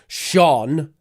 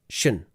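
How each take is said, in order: First: The vowel is full and strong. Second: The vowel is weak and reduced. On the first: The speaker calls it wrong. "So not Sean" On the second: The speaker calls it right. "it's a weak sound, not a strong sound"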